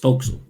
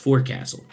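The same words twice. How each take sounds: First: The word is said in shortened form. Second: The word is said in full form. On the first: This is how it is said on a boat. The speaker calls it right. "It's forecastle" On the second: This is how it is said off a boat. The speaker calls it wrong. "if you're on a boat, you don't pronounce it as forecastle"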